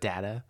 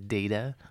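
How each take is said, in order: First: The first vowel is short, like 'dah'. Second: The first vowel is long, like 'day'. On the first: The speaker calls it wrong. "not but, data" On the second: The speaker calls it right. "the first vowel has a long vowel sound? So it's a data"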